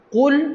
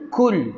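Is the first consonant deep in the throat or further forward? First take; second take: deep throat; further forward. First: The first sound is made deep in the throat. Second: The first sound is a plain forward k. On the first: The speaker calls it right. "Sepatutnya baca dengan qul" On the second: The speaker calls it wrong. "ramai orang suka baca dengan kul"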